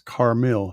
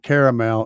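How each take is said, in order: First: It sounds like Car-mil, without a middle vowel. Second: It sounds like the word caramel. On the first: The speaker calls it right. "That's how his name is pronounced" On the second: The speaker calls it wrong. "it's not caramel"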